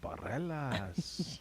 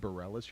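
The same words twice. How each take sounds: First: The name is said with a Spanish pronunciation. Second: The name is said with an English pronunciation. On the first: The speaker calls it right. "you're in Barelas" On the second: The speaker calls it wrong. "You're not in Barelas"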